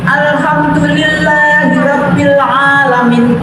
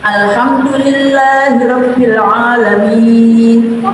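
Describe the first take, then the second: First: The vowel before the final sound is clipped short. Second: The vowel before the final sound is held long. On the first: The speaker calls it wrong. "akhir ayat itu untuk anak-anak itu saya dengarkan dibaca pendek" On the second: The speaker calls it right. "kalau pelan-pelan sampai enam harokat"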